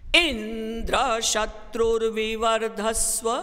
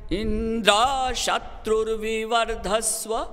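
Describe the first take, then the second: First: The high pitch accent falls on the first syllable. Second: The high pitch accent falls on the last syllable. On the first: "आदि उदात्त" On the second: "अंत्योदात्त कर दिया"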